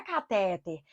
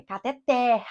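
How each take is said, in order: First: "catéter" stressed on the middle TÉ; weight on the second syllable of "catéter". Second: "cateter" stressed on the last syllable; weight on the ending of "cateter"; stress on final TER. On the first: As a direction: say "catéter" as ca-TÉ-ter, weak ending. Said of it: "não é catéter". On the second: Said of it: "é cateter". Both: Shown as a demonstration.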